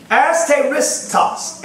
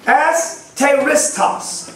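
First: Asteristos slow, falling, deliberate; Greek word repeated. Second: Asteristos slowly sounded out; careful teacher spelling of asteristos; Greek word. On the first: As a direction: repeat Asteristos slowly for the class. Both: Shown as a demonstration. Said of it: "the Greek word".

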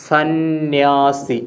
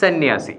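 First: സന്യാസി stretched very slowly, each syllable held; സന്യാസി drawn out as if writing it; common spelling sounded out. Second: സന്യാസി said short, with a doubled n and falling end; സന്യാസി unstretched, as the corrected word; correct form. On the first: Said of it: "സാധാരണ നമ്മൾ എഴുതുന്നത് എങ്ങനെയാണ്". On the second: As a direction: give സന്യാസി as one compact word. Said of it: "ശരിയായ വാക്ക് ഏതാണ്". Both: Shown as a demonstration.

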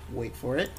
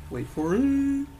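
First: Low, soft tease before the reveal; hushed, lower build-up; suspenseful aside. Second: Stretched, rising drum-roll tease; milk the suspense on a high held note; drawn-out suspense. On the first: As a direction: hold them in suspense, quietly. Policeman builds up to the price. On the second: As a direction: climb high and hold the last word. Second, bigger build-up to the price. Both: Acted.

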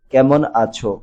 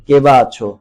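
First: "কেমন" as ke-mon; standard form. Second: "কে বা" as ke-ba, said loud; dialect form. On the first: Teacher converts for pupils, standard "কেমন" as ke-mon. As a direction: say standard "কেমন" in two syllables. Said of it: "প্রমিত রূপে লিখতে হবে". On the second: Teacher reads the exercise, dialect "কে বা" loud as ke-ba. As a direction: punch out dialect "কে বা" for "how". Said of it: "আঞ্চলিক বাক্যকে প্রমিত রূপে লিখতে হবে". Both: Shown as a demonstration.

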